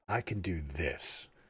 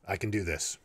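First: The word "this" is stressed. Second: No word stands out; the delivery is flat.

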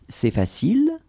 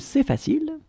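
First: The voice rises at the end. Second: The voice stays flat or falls at the end. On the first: It is a question. "raise your voice at the end" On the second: It is a statement. "If you don't raise your voice"

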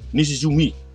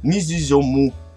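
First: The name ends with an 'i' sound. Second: The name ends with an 'o' sound. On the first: The speaker calls it right. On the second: The speaker calls it wrong.

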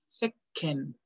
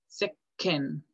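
Both takes have the same delivery.

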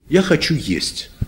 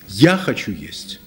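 First: The word "есть" carries the main stress. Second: The word "я" carries the main stress. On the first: I want to eat, not walk or drink. "Это значит не гулять, не пить" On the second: I am the one who wants to eat, never mind the others. "А это значит, да помрите вы все. Какое мне дело?"

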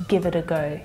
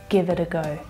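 Both takes have the same delivery.

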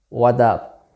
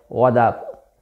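First: The word 'is' is dropped completely. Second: The word 'is' is dropped completely.

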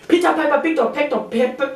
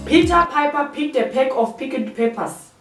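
First: It is said quickly, rushing the words. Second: It is said at a normal, careful speed.

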